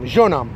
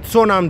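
First: The name begins with a J sound. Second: The name begins with an S sound. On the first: "În aplicații îi veți găsi scriși Jeonam cu J" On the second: "Am auzit din gură de corean că se pronunță Seongnam"

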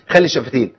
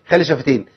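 The two takes are said the same way.

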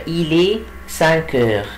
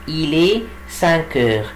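The two takes are said the same way.

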